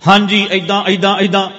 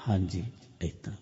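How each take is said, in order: First: Loud, raised-pitch demonstration; loud inner voice. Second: Very soft and low; quiet inner voice. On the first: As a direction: rattle it out high and insistently loud. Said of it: "ਇੱਕ ਹੁੰਦਾ". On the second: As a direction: drop to a hushed, low demonstration. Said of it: "ਹੌਲੀ ਗੱਲ ਕਰੋ". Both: Shown as a demonstration.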